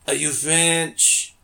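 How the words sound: It is said in a put-on French accent.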